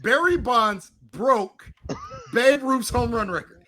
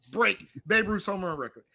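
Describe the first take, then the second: First: Slow, deliberate quote with stress on "Babe"; quoting slowly. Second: Said in the usual way. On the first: Retold or imitated. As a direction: spell out "Barry Bonds broke Babe Ruth's home run record" slowly. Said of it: "your exact statement was". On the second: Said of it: "He did not".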